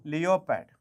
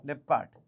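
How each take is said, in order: First: ലിയോപാഡ് said as three parts, "lee-yo-pad"; spelling pronunciation. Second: ലെപ്പാഡ് said in two parts, "lep-pad"; short "e" in ലെപ്പാഡ്, no "yo" sound; standard pronunciation. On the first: Teacher giving animal names, ലിയോപാഡ് read as spelt, "lee-yo-pad". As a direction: sound out the "eo" in ലിയോപാഡ് as two vowels. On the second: Teacher giving animal names, ലെപ്പാഡ് said the usual way, "lep-pad". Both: Shown as a demonstration. Spelling reading, then usual form.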